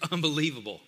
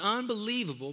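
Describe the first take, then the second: First: The word sounds weary and exasperated. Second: The word sounds warm and enthusiastic. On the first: The marriage is unbelievably bad. The speaker calls it wrong. "you kind of say it this way. Yeah, my marriage, it's unbelievable" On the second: The marriage is wonderfully good. The speaker calls it right. "We want you to have, and I believe God wants you to have, an unbelievable marriage"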